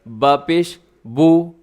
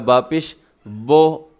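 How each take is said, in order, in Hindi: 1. अंतिम स्वर गोल u है। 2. अंतिम स्वर खुला o है। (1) "पेश की अदायगी में आपके होंठ गोल हो जाएँ" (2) "अगर आप इसे होंठ गोल नहीं करेंगे तो क्या होगा"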